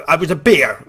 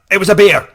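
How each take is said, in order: First: Said in the usual way. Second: Loud, high outburst at a doubter; indignant insistence. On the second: Retold or imitated. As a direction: insist on it at a mock shout. Insists angrily to the doubting ranger.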